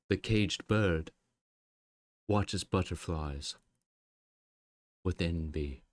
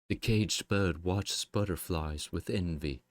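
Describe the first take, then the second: First: It is said in a weird, dramatic way. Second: It is said in a plain, ordinary way. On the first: The speaker calls it wrong. "That was so weird sounding" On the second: The speaker calls it right. "She could have just said"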